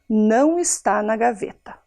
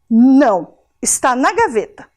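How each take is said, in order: First: There is no pause after "não". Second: There is a pause right after "não". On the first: The watch is not in the drawer. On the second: The watch is in the drawer. "só colocar a vírgula depois do não, que deu a pausa"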